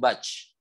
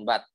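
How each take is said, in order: First: The final t bursts out with too much breath. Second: The final t is held with no air released. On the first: "mengalirkan aliran udaranya berlebihan"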